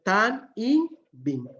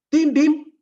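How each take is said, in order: First: The phrase is said fully in three syllables. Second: The phrase is contracted into two short syllables. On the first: The speaker calls it right. "la forma correcta es tan im bin" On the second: The speaker calls it wrong. "cuando dicen tin bin"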